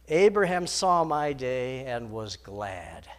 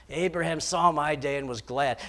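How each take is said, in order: First: Slow, weighty reading of every word; slow solemn quote. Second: Said in the usual way. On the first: Shown as a demonstration. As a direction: let the words "Abraham saw my day" land slowly.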